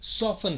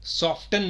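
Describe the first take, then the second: First: The T sound in soften is silent. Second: The T sound in soften is pronounced. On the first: The speaker calls it right. "होता है" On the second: The speaker calls it wrong. "नहीं होता"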